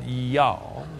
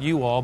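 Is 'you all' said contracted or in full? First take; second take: contracted; full. First: The words are run together into one syllable. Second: Both words are said fully and separately. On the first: The speaker calls it right. "but y'all" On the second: The speaker calls it wrong. "Not you all"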